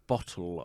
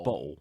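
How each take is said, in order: First: The middle t is clearly pronounced. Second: The middle t is dropped. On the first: "I wouldn't say like bottle" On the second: "I'd say"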